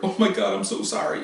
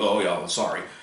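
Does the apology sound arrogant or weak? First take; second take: weak; arrogant. First: It sounds weak and pleading. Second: It sounds arrogant and uncaring.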